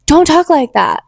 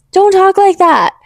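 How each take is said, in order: First: Stern telling-off; firm scolding. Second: Higher, slower, insistent; stronger slow scolding. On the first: Scolding viewers who insult others, firm. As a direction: say it firmly once. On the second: Scolding viewers again, higher and slower. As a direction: draw it out higher to drive it in. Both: Shown as a demonstration.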